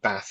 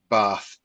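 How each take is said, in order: First: It is said with a Northern English vowel. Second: It is said with a Southern English vowel.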